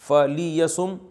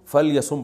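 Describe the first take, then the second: First: A short i vowel follows the L sound. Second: No vowel follows the L sound. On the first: "लाम के जो जेर है" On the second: "उसको साइलेंट कर देते हैं"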